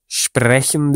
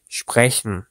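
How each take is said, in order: First: Sprechen with a strongly sounded, rolled R; hard R. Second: Sprechen with a soft R like Turkish soft G. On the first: Teacher shows learners the mistake, sprechen with hard R. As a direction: overdo the R in sprechen. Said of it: "R harfini yumuşak G gibi". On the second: Teacher models it for learners, sprechen with soft R. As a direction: let the R in sprechen glide softly. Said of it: "yumuşak bir şekilde telaffuz". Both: Shown as a demonstration.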